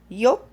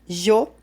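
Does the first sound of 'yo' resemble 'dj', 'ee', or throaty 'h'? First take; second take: ee; throaty h. First: The first sound is a soft 'ee'-like glide. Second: The first sound is a throaty 'h' sound. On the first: "como si fuera una I, una I flaca" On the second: "como si fuera un sonido de una J"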